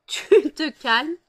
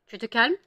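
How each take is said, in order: First: Louder, higher scold with a laugh; half-laughing, half-shouting at the cat. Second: Said in the usual way. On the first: Real, not acted. Owner separating fighting cats, laughing loud scold.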